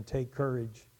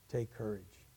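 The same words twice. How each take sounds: First: Said in the usual way. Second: "Take courage" dropped to a soft, hushed close; a quiet, intimate "Take courage"; soft quote. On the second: Shown as a demonstration. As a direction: let "Take courage" fall gently and much softer. Repeated quote, softer take.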